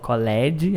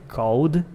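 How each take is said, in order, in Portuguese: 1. Uma sílaba vocálica extra é pronunciada antes do D. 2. A palavra tem uma sílaba só, terminando em D. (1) "não falo college" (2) "é called"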